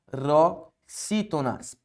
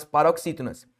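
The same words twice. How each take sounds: First: "paroxítonas" slow, with pauses after pa and ro; syllable by syllable. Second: Said in the usual way. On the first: Shown as a demonstration. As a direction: break "paroxítonas" into pa, ro, xítonas. Teacher sounds out term, then repeats.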